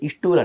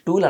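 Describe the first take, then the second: First: The word starts with an added i vowel. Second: The word starts directly with the consonant cluster. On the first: The speaker calls it wrong. "ఇస్టూల్ అంటారు" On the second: The speaker calls it right. "స్టూల్ అనడానికి"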